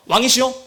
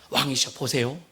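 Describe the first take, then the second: First: Urgent adviser addressing the king; slightly raised, pressing call to a king; Ahithophel. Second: Measured, persuasive adviser; low, soft address to a king, inviting him to look; Hushai. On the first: Ahithophel urging the king to strike, pressing. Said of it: "아이도벨이 하는 얘기는요". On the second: Hushai winning over the king, low and measured. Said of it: "그 지금 후세는요". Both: Acted.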